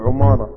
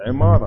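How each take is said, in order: First: عمارة said as 'umaara, with u; u after the ayn. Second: عمارة said as 'imaara, with i; i after the ayn. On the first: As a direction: open عمارة with a u vowel. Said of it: "واخد بقى على العمارات والبيوت". (عمارة بضم العين) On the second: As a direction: open عمارة with an i vowel. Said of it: "هو يقول عمارة". (عمارة بكسر العين) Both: Shown as a demonstration.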